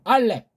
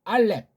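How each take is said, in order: No difference in how they are said.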